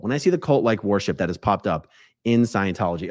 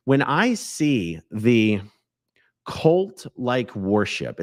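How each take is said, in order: First: Said in the usual way. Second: Slow, breathy whisper. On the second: Acted. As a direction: draw it out in a hushed whisper. Dramatic lead-in about cult worship.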